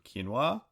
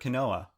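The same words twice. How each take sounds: First: The word is said the usual, accepted way. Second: The word is said the way it is spelled. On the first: The speaker calls it right. "you mean quinoa?" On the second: The speaker calls it wrong. "which I actually failed to pronounce the first time"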